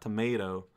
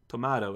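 First: It is pronounced with an English-style reading. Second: It is pronounced with a Japanese-style reading. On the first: This is how it is read outside Japan. "and not Tomato" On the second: This is how it is read in Japan. "in Japanese would read it as Tomato"

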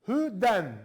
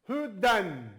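No difference in how they are said.

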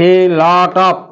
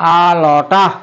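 First: The words are said separately in full. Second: The words are reduced and run together.

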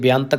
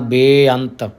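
First: The first vowel is a short i sound. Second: The first vowel is a lengthened e sound. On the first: The speaker calls it wrong. "ਜੇ ਬੇਅੰਤ ਕਵਾਂਗੇ ਫਿਰ ਸਿਹਾਰੀ ਲੱਗੇਗੀ" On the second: The speaker calls it right. "ਥੋੜ੍ਹਾ ਲੰਬਾ ਕਰਨਾ, ਬੇਅੰਤ ਫਿਰ ਲਾਂ ਲੱਗੇਗਾ"

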